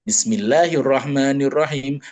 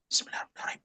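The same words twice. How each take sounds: First: It is said loudly, in a full voice. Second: It is said softly, in a hushed voice. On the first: The basmala is recited aloud in prayer. "dibaca dengan jahar" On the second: The basmala is recited silently in prayer. "cuman bismillahnya sir"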